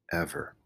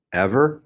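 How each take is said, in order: First: "Ever" low and soft, falling; hushed "Ever", pitched down; confirming. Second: "Ever" pitched up with a rise; "Ever" raised into a question. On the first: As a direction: answer "Ever" quietly with a drop. Stephen confirms promise. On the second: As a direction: ask "Ever" high, lifting the end. Samar presses for promise. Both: A narrator's reading.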